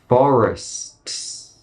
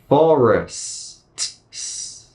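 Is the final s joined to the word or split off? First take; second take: joined; split. First: The final s is joined to the word. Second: A pause separates the final s from the word.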